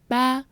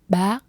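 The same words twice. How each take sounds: First: The word has a plain level tone. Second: The word has a high rising tone.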